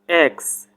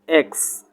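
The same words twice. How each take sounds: First: It is said in an American accent. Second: The same.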